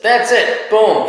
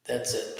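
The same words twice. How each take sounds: First: Announced out loud. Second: Whispered. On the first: Wrapping up the show. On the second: Checking if the show is done. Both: Real, not acted.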